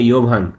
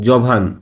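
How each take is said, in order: First: The name begins with a y sound. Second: The name begins with a j sound.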